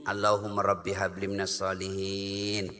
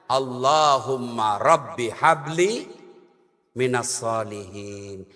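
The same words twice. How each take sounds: First: Put-on soft prayer to child. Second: Low, slow, reverent chant of the prayer; prayer recitation. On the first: Mother murmurs the prayer to her child while feeding him, softly. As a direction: lower and much softer, murmured over the child. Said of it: "Ayo nak, mm, mm, mm". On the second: Acted. Preacher recites Ibrahim's prayer for a pious son, low and slow. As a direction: intone it like a prayer to God.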